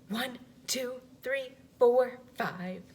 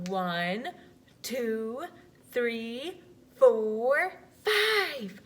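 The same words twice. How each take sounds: First: The numbers are counted a little faster. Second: The numbers are counted slowly.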